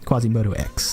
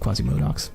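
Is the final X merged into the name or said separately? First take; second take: separately; merged. First: The X is said as a separate letter. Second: The X is run into the name's end. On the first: The speaker calls it right. "he prefers it when you say Quasimodo X" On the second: The speaker calls it wrong. "instead of Quasimodox"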